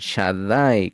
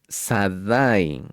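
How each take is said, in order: First: The word begins with an SH sound. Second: The word begins with a plain S sound. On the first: The speaker calls it right. "sino con Shaddai, con Shin" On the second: The speaker calls it wrong. "no lo pronuncien Sadai con pecado"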